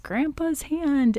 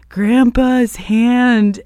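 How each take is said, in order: First: Higher and slow, barely voiced as the kid; a first timid try at the creepy child line; lightly mimicking a little girl's spooky line; half-hearted creepy kid impression. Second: Higher, louder and very slow in a put-on voice; fuller creepy kid impression. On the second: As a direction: ham up the spooky little girl this time. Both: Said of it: "do a better impersonation".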